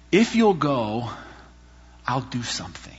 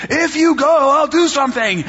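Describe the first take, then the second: First: God whispering. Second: High, loud mock shout; God shouting. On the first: Retold or imitated. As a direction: breathe God's promise softly. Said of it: "God was sort of whispering it". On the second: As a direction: shout God's promise, half joking. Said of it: "He was, like, shouting at me".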